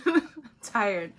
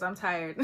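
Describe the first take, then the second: First: Laughing it off as a weary joke; tired words broken by a chuckle. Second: Said in the usual way. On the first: Shown as a demonstration. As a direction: repeat it through a laugh, a touch louder.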